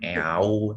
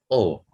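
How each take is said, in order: First: The word is read out as its separate vowels. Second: The word is said as one plain o vowel. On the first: The speaker calls it wrong. "bukan eau" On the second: The speaker calls it right. "tapi O"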